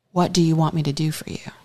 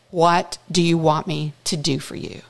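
First: Soft fast whisper; whispered question. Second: Said in the usual way. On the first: Acted. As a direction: whisper it gently to him. Jesus's tender question retold.

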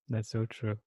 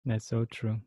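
Both takes have the same delivery.

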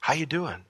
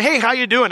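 First: Softer, caring check-in; gentle asking. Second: Loud, high, chipper hello; breezy polite greeting. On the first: The Lord lifting our head, soft and caring. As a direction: ask it gently, meaning it. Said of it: "When he lifts our head up and says". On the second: Casual friend greeting someone, loud and high chipper. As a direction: toss off a bright, loud hi. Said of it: "'cause you ever do that". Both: Retold or imitated.

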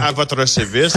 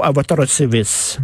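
First: Lightly voiced police officer; a hint of a stiff constable; mock constable voice. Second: Slow mock constable. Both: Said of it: "comme disait R B O".

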